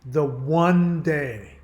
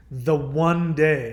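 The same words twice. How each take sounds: First: One drawn out slow and loud; stress on one. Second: The word one stretched slow and louder; stress on one. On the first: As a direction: hammer the word One again, slowly. Repeats emphasis on worst day. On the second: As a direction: lean hard on one, slowly. Stressing worst day of year. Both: Real, not acted.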